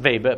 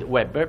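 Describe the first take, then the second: First: The name begins with a V sound. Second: The name begins with an English W sound. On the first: The name belongs to a German person. "perché è tedesco" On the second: The name belongs to an English person. "perché è inglese"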